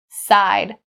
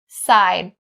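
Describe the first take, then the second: No difference in how they are said.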